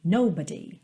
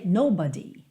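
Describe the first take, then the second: The two takes are said the same way.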